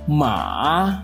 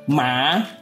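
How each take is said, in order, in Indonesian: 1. Nada turun ke rendah, lalu naik lagi. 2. Nada naik dari tengah ke tinggi. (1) "dimulai dari nada setengah rendah ke nada rendah, kemudian naik ke nada setengah tinggi" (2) "Nada kedua adalah nada tengah ke nada tinggi"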